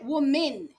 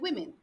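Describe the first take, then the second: First: The first syllable sounds like 'woo'. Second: The first syllable sounds like 'wih'. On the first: The speaker calls it wrong. "No se dice woman" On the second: The speaker calls it right. "se dice women"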